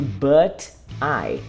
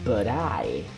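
First: The two words are said separately. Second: The two words run together as one.

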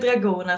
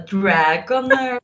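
First: It is pronounced like the name of the spice. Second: It is pronounced in a more dramatic-sounding way. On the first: "Uttalar man det dragoner som krydda?" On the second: "Det låter så mycket mer dramatiskt"

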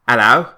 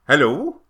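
First: It is said in a Cockney accent. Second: It is said in a South Welsh Valleys accent.

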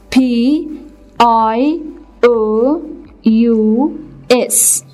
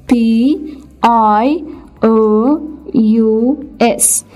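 The two takes are said the same way.

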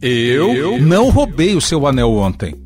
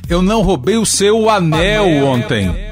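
First: The stress falls on the word eu. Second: The stress falls on the word anel. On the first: Someone else may have stolen it. "vou enfatizar o sujeito da oração" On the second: Something else may have been stolen. "Posso ainda enfatizar o suposto elemento roubado"

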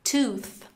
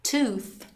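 The two takes are said the same way.

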